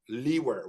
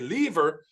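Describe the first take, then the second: First: The middle consonant is a W sound. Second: The middle consonant is a V sound. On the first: "He's kind of overcompensating" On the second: "I pronounce it as a V"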